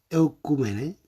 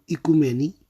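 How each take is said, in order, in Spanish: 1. La palabra empieza con un sonido 'eu'. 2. La palabra empieza con un sonido 'ee'. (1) "Del griego antiguo" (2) "se pronuncia en griego moderno"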